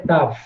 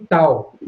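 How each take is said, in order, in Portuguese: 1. A palavra termina com som de v. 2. A palavra termina sem som de v. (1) "a pronúncia, pelo que me consta correta, é Tav" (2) "Algumas pessoas pronunciam tal"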